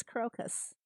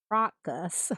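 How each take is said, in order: First: Crocus with a long oh, KROH-cus, slowly; correct crocus. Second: Crocus as KRAH-cus, dropped at the end; mock his KRAH-cus; husband's crocus. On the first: Shown as a demonstration. Streamer showing chat the dictionary crocus. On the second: Streamer mocking her husband's crocus to chat.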